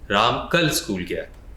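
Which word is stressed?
कल. The word कल is stressed.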